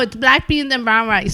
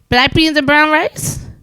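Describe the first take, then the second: First: It falls at the end as a firm statement. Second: It rises at the end like a question.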